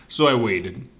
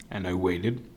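First: Said in the usual way. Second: Fading repeat. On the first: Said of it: "repeated build". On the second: A narrator's reading. Telling listeners how long he waited, quiet and resigned. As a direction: let it trail off as time drags. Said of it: "repeated fading".

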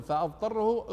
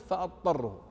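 First: "فأضطره" with a clear ض before the ط; with the dad sound. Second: "فأضطره" said as fattarrahu, the ض merged into ط; dad assimilated. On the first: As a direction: keep the ض audible in "فأضطره". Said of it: "مثل هنا يقول". ("فأضطره" بإظهار الضاد) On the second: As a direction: drop the ض into a doubled ط in "فأضطره". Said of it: "أدغمت". ("فأضطره" بإدغام الضاد) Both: Shown as a demonstration.

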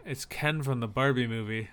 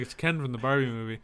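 First: Said in the usual way. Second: "It's Ken from the Barbie movie" rattled off fast; fast patient answer. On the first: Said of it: "And I said". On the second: Retold or imitated. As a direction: rush it like explaining the obvious. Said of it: "So I was just like".

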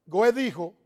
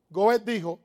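No difference in how they are said.

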